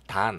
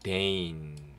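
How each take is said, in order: First: The vowel sounds like 'ah' as in father. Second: The vowel sounds like 'ay' as in day. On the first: The speaker calls it wrong. "단 아니고요" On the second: The speaker calls it right. "요 a가 에이 발음 납니다"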